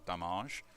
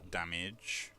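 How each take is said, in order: First: "damage" in a mock-fancy way, second syllable drawn out; alternative pronunciation. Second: Said in the usual way. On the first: Shown as a demonstration. Player joking about how to say damage, alternative pronunciation. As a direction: say "damage" with the end like "-ahzh". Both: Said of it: "however you wanna pronounce it".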